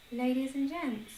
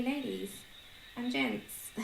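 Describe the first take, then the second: First: Ladies and gents said through a laugh. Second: Said in the usual way. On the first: Shown as a demonstration. Repeating the new greeting to viewers, laughing. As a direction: try "Ladies and gents" again, giggling. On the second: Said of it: "I'm gonna say".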